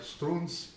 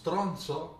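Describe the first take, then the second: First: It is said as strunz, Neapolitan style. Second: It is said with an O, standard Italian.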